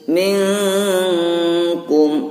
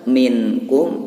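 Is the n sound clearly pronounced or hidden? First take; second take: hidden; clear. First: The n sound is hidden and nasalized. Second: The n sound is pronounced clearly. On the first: The speaker calls it right. "caranya membaca yang benar minkum" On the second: The speaker calls it wrong. "Kalau dibaca minkum"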